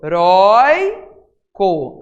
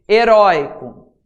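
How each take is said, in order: First: "heróico" broken as "e... rói... co"; "heróico" very slow, syllable by syllable, stressed middle; split into syllables. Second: Said in the usual way. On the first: Shown as a demonstration. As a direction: stretch a loud "rói" in "heróico". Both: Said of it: "A sílaba tônica é orói".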